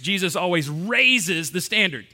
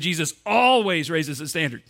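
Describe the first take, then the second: First: The word 'raises' is stressed. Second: The word 'always' is stressed. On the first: "we're going to emphasize raises" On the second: "I want you to emphasize the second word"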